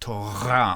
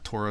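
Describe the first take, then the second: First: The R is gargled in the back of the throat. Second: The R is made at the front, not gargled. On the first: The speaker calls it right. "in the back of your throat ... like a garbled G" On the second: The speaker calls it wrong. "It's not Torah"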